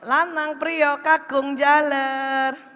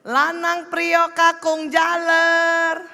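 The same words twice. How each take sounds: First: It is called at a normal pitch. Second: It is called at a very high pitch.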